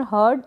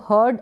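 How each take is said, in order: First: हर्ड with the r sounded; r pronounced. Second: हर्ड with a silent r; r dropped. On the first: Teacher showing the other allowed reading, r pronounced in हर्ड. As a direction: let the r be heard before d in हर्ड. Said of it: "हर्ड ऐसे भी". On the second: Teacher showing one allowed reading, r dropped in हर्ड. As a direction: go from the vowel straight to d in हर्ड. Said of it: "ऐसे भी pronounce कर सकते हैं". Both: Shown as a demonstration.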